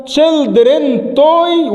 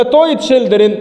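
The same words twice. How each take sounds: First: Slow wrong-order model. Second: Slow right-order model. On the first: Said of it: "ولا toy children؟". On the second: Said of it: "Children toy ولا". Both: Shown as a demonstration.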